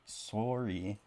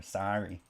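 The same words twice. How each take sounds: First: "Sorry" with a long round OR vowel, as "sore-ee"; Canadian "Sorry". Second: "sorry" with an open AH vowel, as "sah-ree"; Minnesota "sorry". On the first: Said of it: "Or sorry". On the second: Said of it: "that sounds like Minnesota". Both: Shown as a demonstration.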